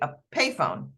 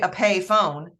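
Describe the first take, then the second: First: The word carries only a single stress. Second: Both parts of the word are stressed. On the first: The speaker calls it right. "It gets one stress" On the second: The speaker calls it wrong. "I don't say a pay phone"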